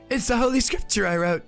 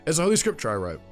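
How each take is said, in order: First: It is read in a strained, higher character voice. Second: It is read in the plain, normal reading voice. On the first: "I just tried to do my usual voice for um, the Heretic Inquisitor" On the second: "we're not going to do that"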